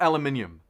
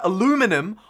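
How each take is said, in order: First: The 'lu' syllable has a weak U sound. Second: The 'lu' syllable has a strong U sound.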